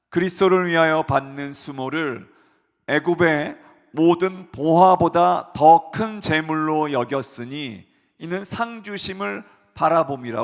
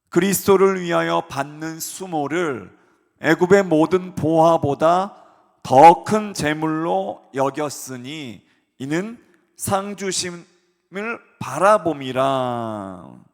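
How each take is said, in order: First: The verse is read at normal speed. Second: The verse is read slowly.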